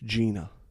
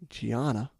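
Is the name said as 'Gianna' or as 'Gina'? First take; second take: Gina; Gianna. First: The name is said as 'Gina'. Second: The name is read as 'Gianna'. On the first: This is how the girl herself says it. The speaker calls it right. "her name is Gina" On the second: This is how the spelling seems to read. The speaker calls it wrong. "you would think it's Gianna"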